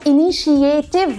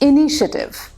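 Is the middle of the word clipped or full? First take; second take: full; clipped. First: The middle is said in full as 'shi-ay-tiv'. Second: The middle is clipped to a short 'shi-tiv'. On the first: The speaker calls it wrong. "मगर वो इनिशिएटिव नहीं होता" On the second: The speaker calls it right. "शिएटिव नहीं, शिटिव हो जाता है, clip हो जाता है"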